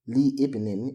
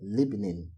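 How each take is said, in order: First: Li is said separately before the next vowel. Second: Li merges with the word into one unit. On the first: The speaker calls it wrong. "it is wrong to say" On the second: The speaker calls it right. "instead of"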